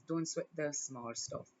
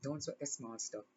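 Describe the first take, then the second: First: Slow, deliberate reassurance; measured motherly counsel; slow firm advice. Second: Softer repeat, almost to herself; gentle hushed repetition; soft echo. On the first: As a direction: lay it down slowly and gently. Repeated advice, first take. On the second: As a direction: let it fall away quietly. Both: Real, not acted.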